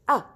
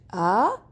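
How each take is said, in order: First: The pitch drops sharply from high. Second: The pitch rises from low to high. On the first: "it's like you're cutting your voice suddenly" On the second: "you start from down and you go you go suddenly up"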